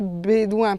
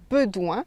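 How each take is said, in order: First: The first vowel is a closed é sound. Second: The first vowel is a weak unaccented e. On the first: This is how it is said because of the written accent. "on prononce bédouin parce qu'il y a un accent" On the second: This is the original local way to say it. "à l'origine on devait dire bedouin"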